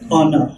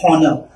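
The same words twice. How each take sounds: First: The H at the start is silent. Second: The H at the start is pronounced. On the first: The speaker calls it right. "We say honor. ... So you don't pronounce the H" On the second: The speaker calls it wrong. "we don't say honor"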